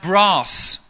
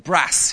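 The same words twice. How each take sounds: First: It is said with a southern English vowel. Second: It is said with a northern English vowel.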